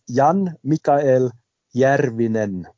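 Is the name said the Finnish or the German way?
Finnish. It is said in Finnish with rolled r. "ich sage jetzt mal die korrekte, im Finnischen wird das ja gerollt"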